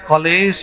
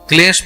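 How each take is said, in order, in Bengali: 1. k আর l-এর মাঝে একটি স্বরধ্বনি যোগ করা হয়। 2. k আর l একসাথে বলা হয়, কোনো স্বরধ্বনি নেই। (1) "অনেকে কি বলে ... কলেশ" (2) "ক্লেশ বলে না"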